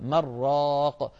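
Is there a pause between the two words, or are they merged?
merged. The nun merges into the ra without pause. The speaker calls it wrong.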